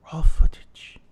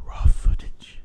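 First: Loud accented stage whisper; pushed whisper. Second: Loud stage whisper, accented; dark whisper. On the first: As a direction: push the whisper harder. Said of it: "so let me try this again". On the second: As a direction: hiss it out darkly. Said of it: "but you said it so dark". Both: Shown as a demonstration.

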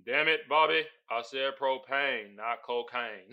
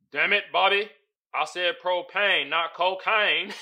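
First: Lightly channel the cartoon dad; a hint of Hank Hill. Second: Said in the usual way. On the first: Host rereading the caption in a light Hank Hill voice. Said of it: "I gotta read it again".

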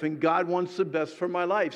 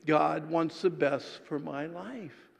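First: Said in the usual way. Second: Slow, measured unison recital; congregational recitation. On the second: Shown as a demonstration. Preacher and congregation reciting together, slow. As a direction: say it slowly together as a creed. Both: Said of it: "Say that with me".

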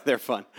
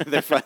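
First: Said in the usual way. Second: Laughing. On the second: Real, not acted. Echoing host with laugh.

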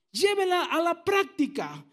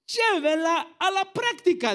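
First: Said in the usual way. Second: Higher and slow, leaning on práctica; slow emphatic command. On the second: Shown as a demonstration. Pastor urging the church to live it out, slow and emphatic. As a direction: pastor stresses "Llévela a la práctica" with práctica drawn out slow.

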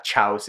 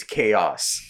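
First: "Chaos" said as one syllable, like "chouse"; mistaken pronunciation. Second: "Chaos" said in two syllables, KAY-oss; corrected pronunciation. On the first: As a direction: say "Chaos" with a CH as in chair, rhyming with house. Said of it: "it's not Chaos". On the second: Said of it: "it's Chaos". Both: Shown as a demonstration.

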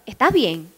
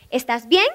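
First: "¿Estás bien?" falling from "Estás" to "bien"; downward question tune. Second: "¿Estás bien?" rising on "bien"; upward question tune. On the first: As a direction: ask it with "bien" dropping down. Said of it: "Es pa' abajo". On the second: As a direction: lift the end of "bien" as a question. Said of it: "Esto es pa' arriba". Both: Shown as a demonstration.

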